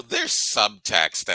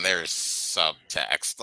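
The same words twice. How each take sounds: First: Said in the usual way. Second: "subtext" drawn out slowly, syllable by syllable; stress on SUBTEXT. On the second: Shown as a demonstration. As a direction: stretch "subtext" into a heavy, knowing hint. Contrasts mild and obvious subtext.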